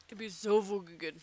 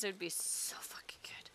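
First: Said in the usual way. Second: Hushed, whispered relish; whispered, much softer emphasis; longing whisper. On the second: Real, not acted. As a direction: whisper it like a fervent wish. Dreaming aloud of a remake.

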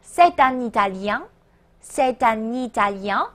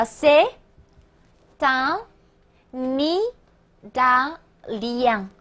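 First: C'est un Italien run together, t and n linked; C'est un Italien as one connected phrase, lifted at the end; linked liaison. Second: C'est, un, Italien in separate pieces with long pauses; slow, spaced-out c'est / un / Italien; broken-down liaison demo. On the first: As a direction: join C'est un Italien as "say-tan-nee-ta-lyan". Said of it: "务必连读哦". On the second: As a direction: teach c'est un Italien piece by piece, n carried onto Italien. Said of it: "注意连读连诵啊". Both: Shown as a demonstration.

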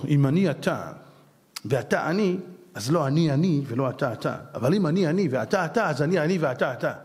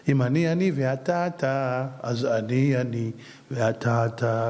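First: Rattled off as a tongue-twister; quick run-together saying; garbled recitation. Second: Very slow, low, deliberate; patient unhurried teaching; slow explanation. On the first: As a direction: rush the riddle so it sounds like gibberish. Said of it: "שוואדה, זה נשמע אמהרית". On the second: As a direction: spell out each word so it lands. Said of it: "תראה, אם אני אתה". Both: Shown as a demonstration.

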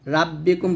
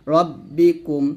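First: রাব্বিকুম with an open, light first A; wrongly thin R. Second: রব্বিকুম with a full R and rounded first vowel; heavy R. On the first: Teacher showing pupils what not to say, R thin. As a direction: flatten the first vowel of রাব্বিকুম to Ra. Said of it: "বলা যাবে না". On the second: Teacher giving pupils the correct word, R heavy. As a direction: round the opening of রব্বিকুম, not Ra. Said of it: "রাব্বিকুম বলা যাবে না". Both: Shown as a demonstration.

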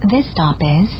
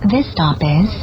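Both takes have the same delivery.

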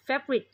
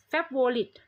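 First: "favorite" squeezed to two syllables, fev-rit. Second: "favorite" in three syllables, fep-wo-lit; Thai misreading. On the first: Teacher models for students, two-syllable "favorite". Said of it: "สองพยางค์พอนะคะ". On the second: Teacher imitates common Thai reading, three-syllable "favorite". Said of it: "คนไทยชอบอ่าน favorite". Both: Shown as a demonstration.

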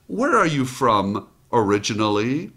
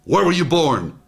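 First: Unhurried, friendly question; a mother's relaxed friendly question; easygoing tone. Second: A touch louder, curt interrogation; lightly sharpened official question; too sharp. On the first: Retold or imitated. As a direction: ask it like an old friend would. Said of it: "Notice the tone, easygoing". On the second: Shown as a demonstration. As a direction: fire it like a mild mock interrogator. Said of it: "Too sharp".

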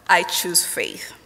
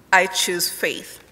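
No difference in how they are said.

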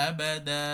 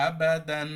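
First: আবাদা said with final ন dropped, ending on a long দা; pausal ending. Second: আবাদান with a clear final ন, no stretch; tanween kept. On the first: Teacher demonstrates stopping on আবাদা. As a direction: stop on আবাদা, two-beat দা, no nun. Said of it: "ওয়াকফ করলে". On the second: Teacher contrasts continuing without a stop. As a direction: say আবাদান with the nun sounded. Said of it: "তানবিন দিয়ে পড়তে হবে". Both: Shown as a demonstration.

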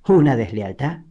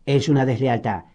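First: Scornful echo, rising into a question; incredulous, contemptuous repeat. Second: Said in the usual way. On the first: A narrator's reading. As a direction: throw DESLEALTAD back as a disdainful question. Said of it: "repitió Lizzie en tono despectivo".

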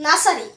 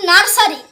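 First: Nursery with the r silent, lower; correct pronunciation. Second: Nursery said slowly with a sounded r; wrong reading. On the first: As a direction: say nursery the right way, no r. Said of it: "it will be". (সঠিক উচ্চারণে nursery) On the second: (ধীরে ভুল উচ্চারণে nursery) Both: Shown as a demonstration.

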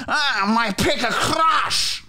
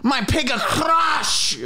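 First: Wailing. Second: Wailing higher. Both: Acted. Repeated wailing line.

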